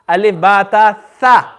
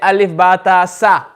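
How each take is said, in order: First: The last letter starts with a 'th' sound. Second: The last letter starts with an 's' sound. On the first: The speaker calls it right. "Is tha" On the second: The speaker calls it wrong. "We will say alif ba ta sa"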